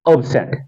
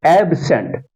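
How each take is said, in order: First: absent said ub-SENT, weak opening vowel; light ub, strong SENT in absent; second-syllable stress. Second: absent said AB-sent, full open AB; strong AB, lighter sent in absent; first-syllable stress. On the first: Teacher reading for students, stress on SENT. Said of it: "यानी एस पे stress है". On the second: Teacher reading for students, stress on AB. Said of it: "पहले वाले syllable पे stress है". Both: Shown as a demonstration.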